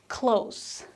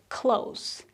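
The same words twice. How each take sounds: The two takes are said the same way.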